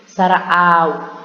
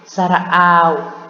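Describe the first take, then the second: The two takes are said the same way.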